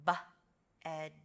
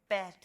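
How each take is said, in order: First: B-ed split slowly into its sounds; sounding out. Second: Said in the usual way. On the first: Shown as a demonstration. Teacher sounding out B-ed for the class. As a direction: sound out B-ed letter by letter. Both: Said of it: "it's going to have the ending".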